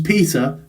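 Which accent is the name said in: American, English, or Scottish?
English. It is said in an English accent. "I've got to translate it to English first"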